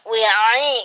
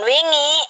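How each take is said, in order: First: The ain is made as a throat sound. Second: The ain is replaced by an ng sound. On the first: The speaker calls it right. "wi'ai gitu" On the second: The speaker calls it wrong. "Jangan wingi"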